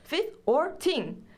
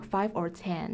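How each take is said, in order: First: It is said in a New Zealand accent. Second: It is said in a plain, non-New Zealand accent.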